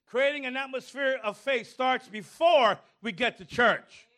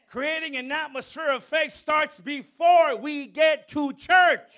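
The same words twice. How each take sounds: First: Said in the usual way. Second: Before hit hard in a loud preaching shout; shouted sermon line leaning on before; stress on before, shouted. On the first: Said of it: "let me say that again". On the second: Shown as a demonstration. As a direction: punch the word before and build to a shout. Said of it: "Emphasis in the word before".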